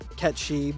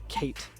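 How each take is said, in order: First: The name is said with two syllables. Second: The name is said as one syllable. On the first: "he says uh, Ketchi" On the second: "but he pronounces it Kate"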